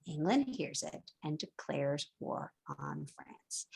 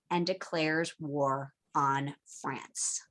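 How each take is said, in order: First: Slow, breathy dramatic whisper of the whole line; dramatic whispered repeat for the class. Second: Slow, low and softer; dramatic hushed reveal. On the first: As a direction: whisper it low, like a secret. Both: Shown as a demonstration.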